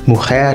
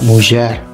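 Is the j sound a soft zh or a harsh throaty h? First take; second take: throaty h; soft zh. First: The j is a harsh throaty h sound. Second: The j is a soft buzzing zh sound. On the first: This is the Spanish form. "the Spanish pronounce it like the Spanish do" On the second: This is the Ladino form. "the Ladino pronounces the J like the French do"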